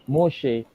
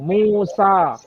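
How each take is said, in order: First: The name ends in an 'e' vowel. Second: The name ends in an open 'a' vowel.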